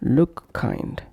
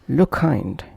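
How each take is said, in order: First: Each k sound is released separately. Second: The two k sounds merge into one. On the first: The speaker calls it wrong. "instead of look kind" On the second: The speaker calls it right. "pronounced as look kind"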